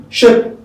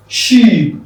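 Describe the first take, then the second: First: "Sheep" said as short "shep", higher; short E replacing EE in "Sheep"; shape-like vowel. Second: "Sheep" with long falling EE; long-vowel sheep. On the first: Teacher repeating the drill, "Sheep" as higher, short "shep". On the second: Teacher repeating the drill, "Sheep" with long EE. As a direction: hold the EE in "Sheep". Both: Shown as a demonstration. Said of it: "But here you have sheep".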